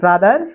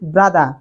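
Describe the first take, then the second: First: It is said with an American accent, final r pronounced. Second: It is said with a British accent, final r dropped.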